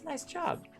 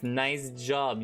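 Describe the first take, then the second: First: It is said in a warm, encouraging tone. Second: It is said in a sarcastic, mocking tone. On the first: The praise is sincere. The speaker calls it right. "I'm trying to be encouraging" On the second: The praise is not sincere. The speaker calls it wrong. "this clap feels very sarcastic"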